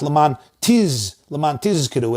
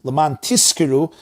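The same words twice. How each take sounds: First: "tiz" with a long buzzing z, then tizkiru; tizkiru, strongly voiced z; clear zayin. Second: "tizkiru" said as tiskiru; tizkiru, voiceless s sound; s for zayin. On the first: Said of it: "articulate clearly the zayin". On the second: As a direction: put an s before the k in tizkiru. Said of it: "It's a completely different word". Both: Shown as a demonstration.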